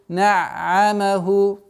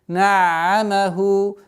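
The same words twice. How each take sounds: Both takes have the same delivery.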